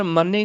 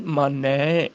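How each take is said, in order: First: ਮਾਨੇ ending in close e; wrong vowel shown. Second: ਮਾਨੈ lower, ending in long open ai; correct vowel shown. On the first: Teacher showing the misreading, ਮਾਨੇ with close e. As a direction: end ਮਾਨੇ on narrow ay. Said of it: "ਕਰ ਮਾਨੇ ਨਹੀਂ". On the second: Teacher correcting students, ਮਾਨੈ with open ai. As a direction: draw out the ai of ਮਾਨੈ. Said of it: "ਇੱਥੇ ਦੁਲਾਵਾਂ ਬੋਲਣੀਆਂ". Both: Shown as a demonstration.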